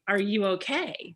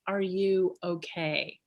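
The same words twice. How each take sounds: First: "Are you okay?" with the tune rising up on "okay"; rising question. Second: "Are you okay?" slow, with the tune dropping down on "okay"; falling concern. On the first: Retold or imitated. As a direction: ask "okay" going up at the end, curious. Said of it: "up inflection for curiosity". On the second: Shown as a demonstration. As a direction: let "okay" fall slowly, with concern. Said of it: "down inflection, down inflection for concern".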